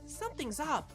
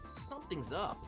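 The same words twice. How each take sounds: First: It is said in the worried sidekick's voice. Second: It is said in a different character's voice. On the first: The speaker calls it right. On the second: The speaker calls it wrong.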